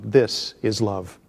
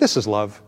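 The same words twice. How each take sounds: First: The word this is strongly stressed. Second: It is said lightly with no special stress.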